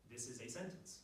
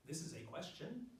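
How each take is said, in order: First: "sentence" kept low, no questioning lift; low, level delivery ending on "sentence"; statement tune. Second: "question" rising in pitch at the end; slow line with upward swing on "question"; question tune. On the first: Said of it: "difference between a sentence and a question". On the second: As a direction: lift the end of "question" as if asking. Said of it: "It moves up in pitch at the end". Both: Shown as a demonstration.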